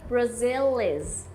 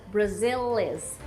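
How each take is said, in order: First: The L is linked straight into the next vowel. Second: The same.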